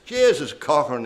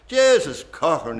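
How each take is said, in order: First: A Dundalk man's exclamation, a bit raised, "Jesus Cochran"; Dundalk accent. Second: A louder Dundalk repeat of "Jesus Cochran"; Dundalk accent. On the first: Paddy Turrell at the bar exclaiming to Sean Cochran, Dundalk accent. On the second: Paddy Turrell repeating it to Sean Cochran, louder Dundalk accent. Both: Retold or imitated. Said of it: "he says, in a Dundalk accent".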